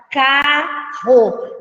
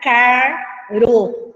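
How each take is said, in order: First: "carro" slowly split as ca, then rro; syllable split demo. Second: "caro" slowly split as car, then ro; wrong syllable split. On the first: Teacher shows that digraphs stay together, "carro" sounded as ca-rro. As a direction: say "carro" in two beats, keeping the rr with the second. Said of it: "eles não se separam". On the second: Teacher shows the split to avoid, "caro" sounded as car-ro. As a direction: break "caro" after the r, in two separate beats. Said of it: "não vai ficar". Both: Shown as a demonstration.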